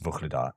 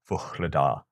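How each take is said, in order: First: The middle consonant is said quickly like a k. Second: The middle consonant is a voiced breathy h. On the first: The speaker calls it wrong. "when I say that quickly, it comes out as" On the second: The speaker calls it right. "a voiced glottal fricative, which is like a h sound"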